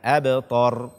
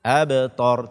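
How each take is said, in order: No difference in how they are said.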